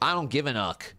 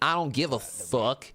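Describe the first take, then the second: First: The last word is said without an F sound. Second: The last word begins with an F sound.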